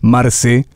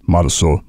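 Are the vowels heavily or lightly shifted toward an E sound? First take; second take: heavily; lightly. First: The vowels are strongly pushed toward an E sound. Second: The vowels are only lightly shaded toward an E sound.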